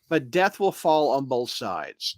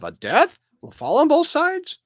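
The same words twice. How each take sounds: First: The voice falls at the end like a statement. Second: The voice rises at the end like a question. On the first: It is a plain statement. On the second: It is asked as a question.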